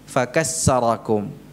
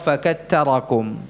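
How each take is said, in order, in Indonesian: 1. Konsonan tengahnya bunyi s. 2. Konsonan tengahnya bunyi t. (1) "bukan sin" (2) "bukan pula ta"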